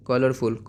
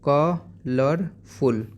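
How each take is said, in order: First: Said in the usual way. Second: colourful in three slow beats, ka... lar... ful; split into syllables. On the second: Shown as a demonstration. Teacher modelling for pupils, syllable by syllable. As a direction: stretch colourful, pausing after ka and lar. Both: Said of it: "आप कैसे बोलोगे".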